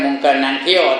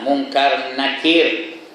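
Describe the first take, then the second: First: The second name is said as 'nangkio' instead. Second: The second name ends with a clear 'kir' sound. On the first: The speaker calls it wrong. "tak betul tu" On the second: The speaker calls it right. "Munkar Nakir, bukan Nangkio ya"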